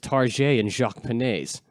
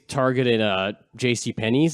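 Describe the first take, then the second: First: The store names are said in mock French. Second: The store names are said in plain English. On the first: The speaker calls it right. "it's Target and Jacques Penney's" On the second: The speaker calls it wrong. "don't say it's"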